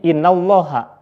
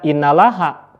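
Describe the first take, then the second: First: The 'l' of Allah is pronounced thick and heavy. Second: The 'l' of Allah is pronounced thin and light. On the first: The speaker calls it right. "tapi innallaha" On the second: The speaker calls it wrong. "Tidak boleh dibaca innalaha"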